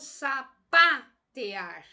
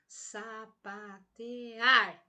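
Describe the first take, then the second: First: The stress is on the syllable pa. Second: The stress is on the syllable ar. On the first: The speaker calls it wrong. "eu intensifiquei a sílaba pá" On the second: The speaker calls it right. "esta última sílaba como sendo uma sílaba mais intensa"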